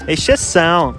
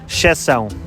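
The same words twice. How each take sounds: First: The first e is sounded in a Brazilian accent. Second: The first e is dropped in a European accent. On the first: "muito bom sotaque brasileiro" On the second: "Em Portugal diríamos"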